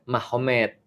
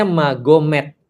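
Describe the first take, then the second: First: Mahomet with an h sound instead of the g; actual pronunciation. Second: Magomet with a hard g, as written; the written form Magomet, hard g; spelled pronunciation. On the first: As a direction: say Mahomet the way it is read aloud. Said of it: "tapi bacanya Mahomet". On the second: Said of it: "Jadi tulisnya Magomet". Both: Shown as a demonstration.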